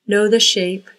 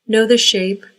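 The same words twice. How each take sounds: The two takes are said the same way.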